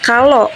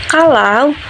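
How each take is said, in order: First: The final vowel is one plain vowel sound. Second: The final vowel glides between two vowel sounds.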